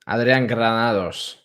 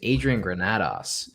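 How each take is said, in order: First: The name is pronounced the Spanish way. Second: The name is pronounced the English way. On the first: "would be the, the, the Spanish one" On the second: "but it's just Adrian Granados"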